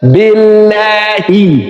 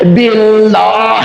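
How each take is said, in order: First: The word ends with an added i vowel. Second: The word ends on a bare consonant. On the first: The speaker calls it right. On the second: The speaker calls it wrong.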